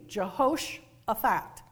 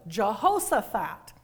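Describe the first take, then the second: First: The middle consonant is pronounced as sh. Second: The middle consonant is pronounced as s. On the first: "So S-H, shh" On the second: "It's also spelled without the H in the middle"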